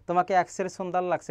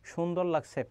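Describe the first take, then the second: First: "সুন্দর" begun with s, as sundar; wrong s sound. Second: "সুন্দর" begun with sh, as shundor; correct sh sound. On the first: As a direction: say "সুন্দর" with s where sh belongs. ("সুন্দর"-এ দন্ত্য স-এর ভুল উচ্চারণ) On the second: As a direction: say "সুন্দর" with a soft sh onset. ("সুন্দর"-এ তালব্য শ-এর উচ্চারণ) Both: Shown as a demonstration. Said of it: "এটা কখনো বলি না".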